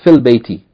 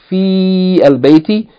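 First: Fi joins the next word with a short vowel. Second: Fi is said separately with a long vowel. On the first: The speaker calls it right. "you say fil bayti" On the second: The speaker calls it wrong. "instead of fi al-bayti"

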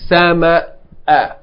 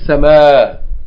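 First: The word ends with a short glottal stop break. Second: The word ends on a long vowel, no break. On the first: The speaker calls it right. "You have to break, a short break in order to pronounce the Hamza" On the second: The speaker calls it wrong. "we can make it long and just say"

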